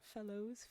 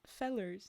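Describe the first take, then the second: First: The word ends with an 'oh' sound. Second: The word ends with an 'er' sound. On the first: The speaker calls it wrong. "not fellows" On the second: The speaker calls it right. "fellers, not fellows"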